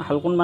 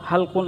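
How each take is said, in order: The two takes are said the same way.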